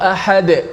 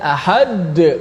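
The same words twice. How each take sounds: First: The final d is released lightly without doubling. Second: The final d is held and stressed heavily. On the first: The speaker calls it right. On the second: The speaker calls it wrong.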